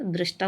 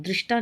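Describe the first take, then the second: First: दृष्टा opened toward drashta; correct pronunciation. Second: दृष्टा with an i, drishta; wrong pronunciation. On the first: Teacher repeating the correction, दृष्टा as drashta. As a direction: say दृष्टा with dra. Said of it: "होता है". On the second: Teacher repeating the error, दृष्टा as drishta. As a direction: say दृष्टा with dri. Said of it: "नहीं होता". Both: Shown as a demonstration.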